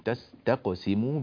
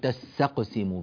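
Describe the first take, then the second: First: The s and t sounds are kept separate. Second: The s sound is merged into the t. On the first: The speaker calls it right. "هذا الحرف هنا لابد من بيانه" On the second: The speaker calls it wrong. "بعض الناس يدغم السين في التاء يقول"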